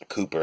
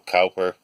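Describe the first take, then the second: First: The first syllable rhymes with too. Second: The first syllable rhymes with how. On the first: The speaker calls it right. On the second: The speaker calls it wrong.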